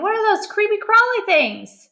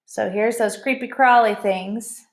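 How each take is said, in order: First: High, rising alarm; mother alarmed by the bugs. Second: Said in the usual way. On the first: A narrator's reading. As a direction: recoil from the bugs. First reading, alarmed. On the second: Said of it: "plain retelling".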